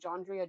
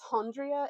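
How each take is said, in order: First: The name begins with a J sound. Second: The name begins with an H sound. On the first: The speaker calls it wrong. "Jondria doesn't sound right" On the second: The speaker calls it right. "the J has the H sound"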